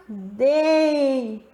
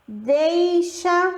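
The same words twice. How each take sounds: First: Deixa stressing the strong E; demo word. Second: Deixa lifted and drawn out for the glide; demo word. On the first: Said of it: "Olha o E fazendo mais força". (deixa com o E forte) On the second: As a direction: model deixa clearly. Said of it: "como, ó". (deixa pronunciado com destaque) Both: Shown as a demonstration.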